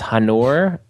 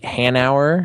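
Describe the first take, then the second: First: The name rhymes with manure. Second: The name does not rhyme with manure. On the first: "which I thought rhymed with manure" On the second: "I'm not sure if I'm pronouncing that right"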